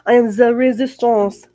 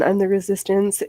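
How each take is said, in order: First: It is said in a put-on French accent. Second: It is said in the speaker's ordinary accent.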